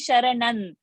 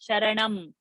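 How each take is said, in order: First: The word ends with an n sound. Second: The word ends with an m sound. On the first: The speaker calls it wrong. "you're not saying Sharanan" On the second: The speaker calls it right. "See the lip"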